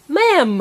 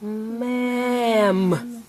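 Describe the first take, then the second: First: MA'AM short, higher and louder; said fast. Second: MA'AM with each sound held long; stretched out. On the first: Teacher confirming the rhyme, said fast. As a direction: blend MA'AM into one brisk word. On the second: Teacher prompting a child's rhyme, stretched out. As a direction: draw MA'AM out slowly. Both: Shown as a demonstration. Sounding out, then blended word.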